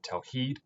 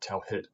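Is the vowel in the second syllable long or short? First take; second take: long; short. First: The second-syllable vowel is long. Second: The second-syllable vowel is short. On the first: The speaker calls it right. "we pronounce that word tawheed" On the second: The speaker calls it wrong. "not tawhid"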